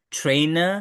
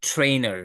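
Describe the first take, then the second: First: "Trainer" with no final r, rising; British non-rhotic "Trainer", lifted at the end; British pronunciation. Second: "trainer" with final r sounded, falling; American pronunciation. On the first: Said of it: "British পিপলরা লাস্টে যখন র". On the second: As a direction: curl an r onto the end of "trainer". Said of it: "American people pronounce it as". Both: Shown as a demonstration.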